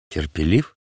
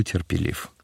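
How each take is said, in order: First: Low indignant echo, rising as a question; mildly indignant question. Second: Said in the usual way. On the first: A narrator's reading. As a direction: throw the word back in offended disbelief. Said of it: "возмутился Варава".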